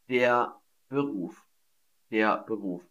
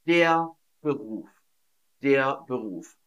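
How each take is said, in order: Both takes have the same delivery.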